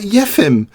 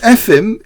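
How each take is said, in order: First: The name begins with a y sound. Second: The name begins directly with a vowel. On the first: "as though there was an extra J" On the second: "Instead of Efim"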